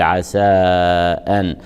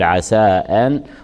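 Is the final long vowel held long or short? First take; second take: long; short. First: The final vowel is held for four or five counts. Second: The final vowel is held for two counts. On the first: "ويصح فيه المد أربع أو خمس حركات" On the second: "يصح قصره حركتان"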